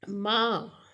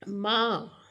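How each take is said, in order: First: The pitch stays high and level. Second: The pitch stays high and level.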